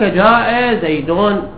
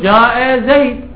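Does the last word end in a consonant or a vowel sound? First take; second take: vowel; consonant. First: The name ends with a final vowel and nunation. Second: The name ends on a silent final consonant. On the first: The speaker calls it wrong. "وهنا أنا أتلفظ الحركة الأخيرة من باب التعليم" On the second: The speaker calls it right. "فالصحيح أن أقول جاء زيد"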